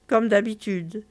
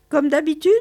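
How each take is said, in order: First: Said in the usual way. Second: "Comme d'habitude" rising as a question, higher and louder; raised, checking "Comme d'habitude?"; questioning tune. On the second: Acted. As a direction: ask "Comme d'habitude" with a lift at the end. Customer asked, then answers the same.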